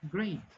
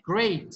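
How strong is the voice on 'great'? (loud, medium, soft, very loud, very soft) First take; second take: very soft; medium. First: The word is said very weakly and quietly. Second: The word is said with medium strength. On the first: "muchas personas lo dicen, great. No se escucha mucho" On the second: "Un nivel 3"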